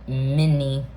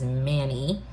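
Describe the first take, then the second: First: The first vowel sounds like in 'men'. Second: The first vowel sounds like in 'man'. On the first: It is the pronunciation given as standard. "when you look at like Google how you're supposed to pronounce it, it says M E N mini" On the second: It follows the spelling. "many is spelled M A N Y, which is Manny"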